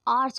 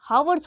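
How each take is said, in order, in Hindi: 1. शब्द एक स्वर से शुरू होता है, कोई h ध्वनि नहीं है। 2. शब्द की शुरुआत में सुनाई देने वाली h ध्वनि है। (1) "बट वो आर्स होता है" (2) "हम लोग हावर्स बोलते हैं"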